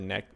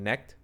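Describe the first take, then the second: First: The name ends in a plain k sound. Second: The name ends in a kt sound. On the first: The speaker calls it wrong. "or Neck" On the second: The speaker calls it right. "That would probably be the better way"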